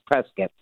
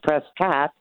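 First: The second syllable sounds like 'kit'. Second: The second syllable sounds like 'cot'. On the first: This is how people from Arizona say it. "If you're from Arizona" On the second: This is how people from California say it. "if it's California"

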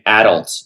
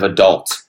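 First: It is said the Canadian way. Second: It is said the American way. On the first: "I was saying adult" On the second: "instead of adult"

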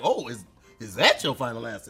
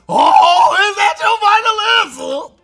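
First: It sounds curious and questioning. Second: It sounds eager and excited.

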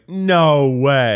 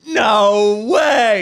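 First: It is said somewhat louder. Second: It is said at the loudest volume.

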